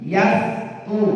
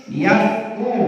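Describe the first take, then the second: Both takes have the same delivery.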